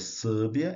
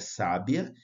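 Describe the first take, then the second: First: The first stressed vowel is closed. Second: The first stressed vowel is open. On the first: The speaker calls it wrong. "não é sábia" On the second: The speaker calls it right. "a vogal da sílaba tônica é som aberto"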